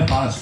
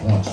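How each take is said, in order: First: It is said with a standard Gujarati 'aa' vowel. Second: It is said with a North Gujarati 'o' vowel. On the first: "શિષ્ટ ભાષામાં આને પાંચ કે આપણે" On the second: "ઉત્તર ગુજરાતમાં આને પોંચ કે"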